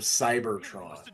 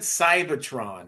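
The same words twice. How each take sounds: First: The R sound is clearly pronounced. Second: The R sound is dropped from the word. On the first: This is the usual way to say it. "instead of Cybertron" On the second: This imitates how the character said it. "He said he said Cybertron"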